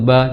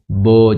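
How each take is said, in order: First: The vowel is light, with lips spread slightly. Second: The vowel is heavy and rounded like o. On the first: The speaker calls it right. "sedikit meringis karena dia termasuk huruf ringan" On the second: The speaker calls it wrong. "jangan bo bo"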